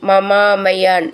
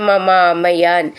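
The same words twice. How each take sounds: The two takes are said the same way.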